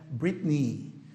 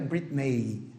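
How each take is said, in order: First: The final vowel is a long ee sound. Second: The final vowel is not a long ee. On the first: The speaker calls it right. "a pronúncia desse E Y é um I longo" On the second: The speaker calls it wrong. "Não é Britney"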